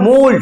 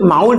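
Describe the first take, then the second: First: The word rhymes with cold. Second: The vowel differs from the vowel in cold. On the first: The speaker calls it right. "উচ্চারণটা mold হবে, কারণ দেখ কোল্ড আছে এখানে" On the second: The speaker calls it wrong. "Actually mold অনেকে বলে"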